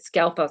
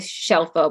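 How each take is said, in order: First: The surname is said with an anglicized pronunciation. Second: The surname is said with its Italian pronunciation. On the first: The family changed it to fit in. "we started mispronouncing it Scelfo" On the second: This is the original Italian form of the name. "sometimes I I say Shelfo"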